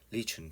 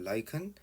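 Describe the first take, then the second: First: The first vowel sounds like 'ih'. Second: The first vowel sounds like 'eye'. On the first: "영국에서는 리춘이라고 발음하기도 해요" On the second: "라이컨이라고 발음하기도 하고"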